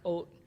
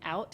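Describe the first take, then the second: First: The word is said with an 'oh'-like vowel. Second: The word is said with a standard 'ow' vowel. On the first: This is how people in the local town say it. "it will sound like oat" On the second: This is the usual pronunciation elsewhere. "instead of saying out"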